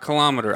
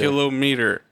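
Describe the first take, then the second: First: The stress is on the second syllable. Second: The stress is on the first syllable. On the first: The speaker calls it wrong. "people start changing the emphasis on the wrong syllable" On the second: The speaker calls it right. "Kilometer, not kilometer"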